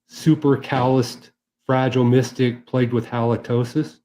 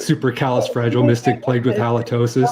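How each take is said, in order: First: The phrase is said at a slower pace. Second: The phrase is said at a faster pace. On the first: The speaker calls it wrong. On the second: The speaker calls it right.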